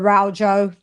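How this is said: The name is said with a British pronunciation. "if you want to say it in British"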